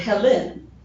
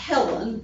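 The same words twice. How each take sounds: First: It is said like the root of Hellenistic. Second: It is said like the usual woman's name. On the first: It names the male founder of the Greeks. The speaker calls it right. "but Helen, which is where they get the term Hellenistic" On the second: It names a woman. The speaker calls it wrong. "not Helen, like a, a female, kind of a traditional female name"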